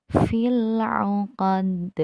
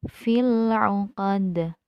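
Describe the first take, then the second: No difference in how they are said.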